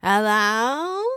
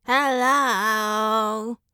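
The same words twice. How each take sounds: First: A curious bird asking again; questioning parrot. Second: A parrot's shrill, slightly higher squawked hello; screeching parrot. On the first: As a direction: parrot hello rising up at the end, slightly higher. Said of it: "Mango repeated". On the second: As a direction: squawk it like a broken doorbell. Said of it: "loud, screeching". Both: A narrator's reading.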